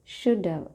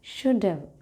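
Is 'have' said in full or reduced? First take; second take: reduced; reduced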